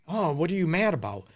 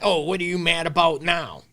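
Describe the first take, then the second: First: It sounds caring and curious. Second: It sounds dismissive and annoyed.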